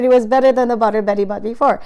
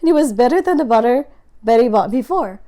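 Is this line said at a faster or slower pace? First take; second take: faster; slower. First: It is said at a faster pace. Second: It is said at a slower, exaggerated pace.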